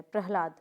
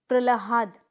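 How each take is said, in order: First: प्रहलाद said prah-laad, h before the l; correct pronunciation. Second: प्रहलाद broken up as pra-la-haad; wrong pronunciation. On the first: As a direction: model प्रहलाद, falling at the end. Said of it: "इस तरह से प्रहलाद लिखा जाता है". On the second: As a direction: demonstrate the mistake प्रहलाद, l before the h. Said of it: "गलत है". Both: Shown as a demonstration.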